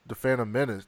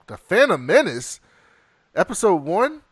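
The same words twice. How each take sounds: First: Said in the usual way. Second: Title repeated with rising and falling emphasis; dawning recognition. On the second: Real, not acted. Host catching a bad film on the list, dawning recognition. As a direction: land on the title as it sinks in.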